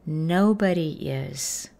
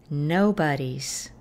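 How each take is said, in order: First: The verb is said as a separate full word. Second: The verb is reduced to an attached s sound. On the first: "Otra manera de decir nadie, alguien o todo el mundo es" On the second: "Y las contracciones son"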